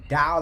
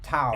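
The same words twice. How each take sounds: First: The word begins with a D sound. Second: The word begins with a T sound. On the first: "like with a D" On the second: "like it's, T S"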